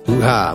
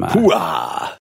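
First: The exclamation is said flatly, without enthusiasm. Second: The exclamation is shouted energetically, like an impression. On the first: The excitement is not conveyed. "It was just my tone. I couldn't summon the hoo-ha that was in my heart" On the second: The excitement is conveyed. "He was trying to do an Al Pacino impression"

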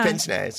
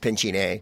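First: The first part has no 'ch' sound. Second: The first part sounds like 'pinch'. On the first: The speaker calls it right. "No, it's pince-nez" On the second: The speaker calls it wrong. "because it's pinch-y-nay"

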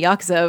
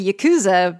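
First: The vowels are short and not overemphasized. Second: The vowels are drawn out and overemphasized. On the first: The speaker calls it right. "why would she know to say Yakuza" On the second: The speaker calls it wrong. "I was expecting her to say Yakuza"

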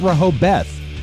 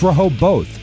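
First: The last syllable sounds like 'beth'. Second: The last syllable sounds like 'both'. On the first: The speaker calls it wrong. "It's not Rehoboth. ... I thought it was B-E-T-H" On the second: The speaker calls it right. "It's Rehoboth"

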